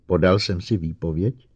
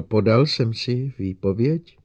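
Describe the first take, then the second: First: Said in the usual way. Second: Slower, higher unsure question; Lenning repeating his question unsure of the robot; uncertain repeat. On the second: Acted. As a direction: repeat it hesitantly. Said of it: "trochu nejistě opakoval".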